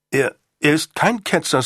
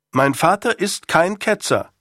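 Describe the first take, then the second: First: Higher-pitched, indignant denial; startled protest. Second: "Mein Vater ist kein Ketzer" higher and insistent; emphatic. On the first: Acted. Son defends father to Sir Thomas, startled higher-pitched protest. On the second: A narrator's reading. Son insists to Sir Thomas, "kein Ketzer" said emphatically. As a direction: repeat "kein Ketzer" firmly, with force on each word. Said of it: "wiederholte er mit Nachdruck".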